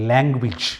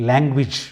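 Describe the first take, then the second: No difference in how they are said.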